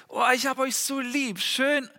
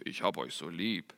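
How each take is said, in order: First: Higher, tender "ich hab euch so lieb"; loving voice to kids. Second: Said in the usual way. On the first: Shown as a demonstration. Father telling his kids he loves them, tender and high. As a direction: coo it to your children. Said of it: "Ich werde sagen". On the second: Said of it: "die ist da nicht so tief".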